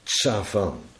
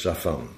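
First: The word is articulated fully and carefully. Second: The word is articulated lazily, with a simplified start. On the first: "Tsafan heet het woord" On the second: "Als je lui bent, dat heet articulatieluiheid, dan spreek je het uit als safan"

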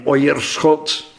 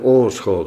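First: The first vowel is an oi sound. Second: The first vowel is a plain long o. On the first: The speaker calls it wrong. "dan gaan we moeite doen om hem alsnog uit te spreken, die I" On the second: The speaker calls it right. "je wordt geacht gewoon uit te spreken"

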